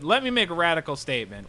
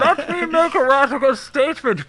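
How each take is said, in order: First: It is read in a normal speaking voice. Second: It is read in a put-on villain voice.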